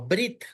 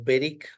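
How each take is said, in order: First: The first two consonants run together without vowel. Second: A short e sound follows the first consonant. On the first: The speaker calls it wrong. "y no brit" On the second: The speaker calls it right. "Por eso decimos berik"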